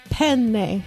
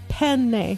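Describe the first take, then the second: First: The middle n sound is held long. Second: The same.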